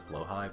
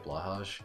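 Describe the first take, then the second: First: It is said closer to a Swedish pronunciation. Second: It is said with an English-style pronunciation. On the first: "it's honestly closer to Blowhigh, but I'm still saying that wrong" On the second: "the people that don't even try to do the Swedish pronunciation. They say Blahaj"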